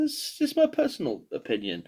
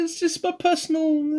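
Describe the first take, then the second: First: Said in the usual way. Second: Squeaky high voice. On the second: Pretend. Self-conscious disclaimer, pitch jumps up.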